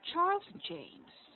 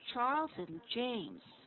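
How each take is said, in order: First: James is said at a lower pitch than Charles. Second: Charles and James are said at the same pitch. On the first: The speaker calls it wrong. "Don't go lower in terms of your tone. You don't go Charles and James. Don't go like that" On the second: The speaker calls it right. "It should be Charles and James. Same level"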